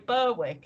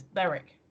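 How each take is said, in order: First: Berwick said as "Burr-wick"; mispronounced Berwick. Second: Berwick said as "Berrick"; correct Berwick. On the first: Showing what a lot of people say, Berwick as "Burr-wick". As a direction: sound the W in Berwick, as written. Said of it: "and it's not". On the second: Correcting what a lot of people say, Berwick as "Berrick". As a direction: drop the W from Berwick. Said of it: "It's Berwick". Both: Shown as a demonstration.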